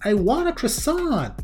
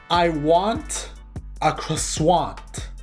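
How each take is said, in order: First: Croissant is said in the ordinary way. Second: Croissant is said in an odd, unusual way. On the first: "I kept saying this over and over" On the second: "For no reason at all, I said"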